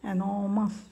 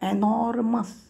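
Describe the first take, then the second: First: The r sound is left out in the middle. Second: The r sound is pronounced in the middle. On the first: The speaker calls it right. "आरचा उच्चार होत नाही" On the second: The speaker calls it wrong. "आर एनॉर्मस असं नाही"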